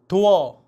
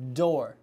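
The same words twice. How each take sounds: First: The first d sound is voiceless. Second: The first d sound is voiced. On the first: The speaker calls it wrong. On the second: The speaker calls it right. "유 울리셔야 돼요"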